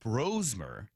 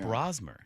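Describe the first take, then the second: First: The first syllable sounds like 'bro'. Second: The first syllable does not sound like 'bro'. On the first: The speaker calls it right. "He said it's Brosmer" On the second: The speaker calls it wrong.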